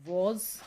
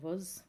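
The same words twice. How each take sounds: First: The word is said with a full vowel. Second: The word is said with a reduced vowel. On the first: "वो strong form है" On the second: "वो weak form है"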